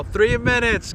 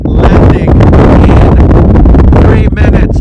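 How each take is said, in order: First: Said in the usual way. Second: Called out loud and slow; calling out. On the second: Real, not acted. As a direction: announce it over the wind. Announcing plane landing outdoors.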